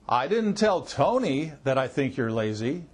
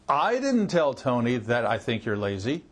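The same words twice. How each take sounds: First: The stress falls on the word Tony. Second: The stress falls on the first word, I. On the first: Someone other than Tony was told. "That means maybe I told somebody besides Tony" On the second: Someone else told Tony. "That means somebody else told Tony that"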